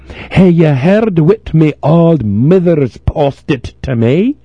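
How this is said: It is read in a broad Scots accent.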